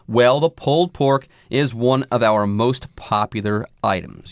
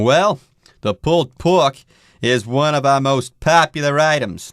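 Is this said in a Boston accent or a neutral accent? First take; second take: neutral; Boston. First: It is spoken with a neutral accent. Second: It is spoken with a Boston accent. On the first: "I'm going to cut the accents out entirely here next" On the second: "I've kind of lapsed into a Boston accent there"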